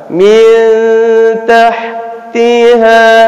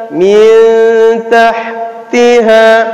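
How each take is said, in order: The two takes are said the same way.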